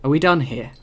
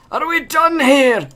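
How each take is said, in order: First: Said in the usual way. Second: Line redone much higher and slower; a second, higher, drawn-out take of the question. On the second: Shown as a demonstration. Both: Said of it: "Oh, no".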